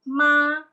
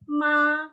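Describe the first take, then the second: First: The word is said with a flat first tone. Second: The word is said with a flat first tone.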